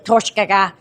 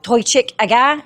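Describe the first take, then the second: First: The first word is shortened into the next. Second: The first word keeps its full form. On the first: The speaker calls it right. "So you start to shorten the word" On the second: The speaker calls it wrong. "So it's not Toychik aga"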